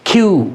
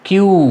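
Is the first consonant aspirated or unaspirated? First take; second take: aspirated; unaspirated. First: The first consonant has a strong puff of air. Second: The first consonant has no puff of air. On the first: The speaker calls it right. "উচ্চারণটা হবে খিউ" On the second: The speaker calls it wrong. "কিউ উচ্চারণ করছি আমরা এটি ভুল"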